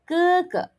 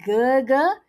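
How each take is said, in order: First: Each syllable starts with an unaspirated k-like sound. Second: Each syllable starts with a voiced g sound. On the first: The speaker calls it right. "change it to K and do not blow" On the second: The speaker calls it wrong. "it's not Gerger"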